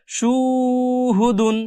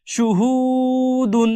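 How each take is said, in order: First: সুহুদুন with the first সু wrongly stretched long, slow; common wrong reading. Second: সুহুদুন with a short first সু and only the middle হু stretched, slow; correct reading. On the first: Teacher imitating students' common mistake, slowly drawn-out wrong reading. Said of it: "অনেকে ভুল করে টানে কিভাবে". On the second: Teacher giving students the correct reading, slowly recited. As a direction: keep সু short and lengthen হু in সুহুদুন. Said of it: "এভাবে পড়তে হবে". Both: Shown as a demonstration.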